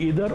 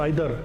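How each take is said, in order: First: The first vowel sounds like 'ee'. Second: The first vowel sounds like 'eye'.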